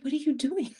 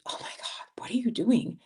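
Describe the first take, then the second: First: Imitating her own startled scold, higher; a playful retold "what are you doing"; mock scolding. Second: Hushed then a sharper mock New York scold; a lightly voiced New Yorker, half under breath. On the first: Tells friend off in street. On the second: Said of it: "the New Yorker in me was like".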